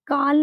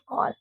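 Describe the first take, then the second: First: The vowel is an open, unrounded 'aa'. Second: The vowel is a rounded 'aw'. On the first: The speaker calls it wrong. "काल नहीं होता है" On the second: The speaker calls it right. "It's your कॉल"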